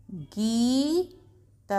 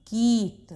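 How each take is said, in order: First: गीत with the ii held very long; slow sounding out. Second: Said in the usual way. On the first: Shown as a demonstration. Teacher sounding out गीत slowly for pupils. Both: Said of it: "एक बार जल्दी से पढ़ के देखते हैं".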